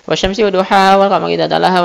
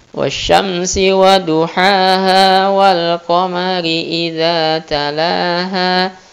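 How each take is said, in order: First: The verses are recited at a fast pace. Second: The verses are recited at a slow pace. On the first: "kita biasanya misalnya bacanya" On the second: "saat jadi imam kita bacanya lambat"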